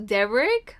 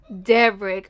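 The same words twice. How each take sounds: First: Devrick? said with a rising, puzzled tune; questioning name. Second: Devrick. said with a falling, final tune; flat statement. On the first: Vlogger puzzling over a character's name, rising question. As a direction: ask the name "Devrick?" as if unsure it's real. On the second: Vlogger repeating the character's name, falling in disbelief. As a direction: state "Devrick." with a firm fall, settling it. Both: Shown as a demonstration. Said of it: "don't get me started on his name too".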